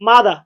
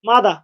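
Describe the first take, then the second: The two takes are said the same way.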